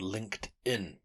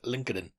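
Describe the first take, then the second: First: The name is pronounced the usual, standard way. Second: The name is pronounced in a misread, unusual way. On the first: The speaker calls it right. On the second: The speaker calls it wrong.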